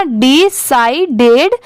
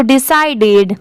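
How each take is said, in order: First: decided slowly as 'di... sai... ded'; slow teaching डि-साइ-डेड, rising at the end; syllable by syllable. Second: Said in the usual way. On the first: Shown as a demonstration. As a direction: break decided into three separate parts. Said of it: "तो पूरा क्या हो जाएगा". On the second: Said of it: "पूरा मिला देंगे तो".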